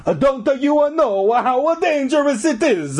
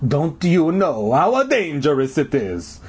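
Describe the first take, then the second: First: Very high, hammed-up Italian warning; bad Italian accent. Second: Slow janitor voice, not truly whispered; hushed warning. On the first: Janitor warns the kids, exaggerated Italian accent. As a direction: belt the warning in cartoon Italian. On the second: Janitor warns the kids up close, slow ominous warning. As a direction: warn them slowly in a put-on voice. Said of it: "he whispered". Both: A narrator's reading.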